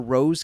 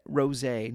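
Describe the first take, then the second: First: It is said as one syllable, final e silent. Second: It is said as two syllables, final e sounded. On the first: The speaker calls it wrong. "not rose" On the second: The speaker calls it right. "They have a rosé cask finish"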